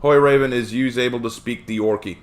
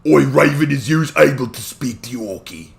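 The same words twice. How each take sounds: First: Said in the usual way. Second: Orky Cockney accent. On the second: Shown as a demonstration. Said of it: "Speaking the Orky ain't too difficult".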